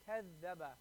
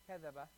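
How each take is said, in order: First: The middle z sound is held long. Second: The middle z sound is short and single. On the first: The speaker calls it right. "When you connect it, it's going to be kaz zaba" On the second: The speaker calls it wrong. "it's not going to be kazaba"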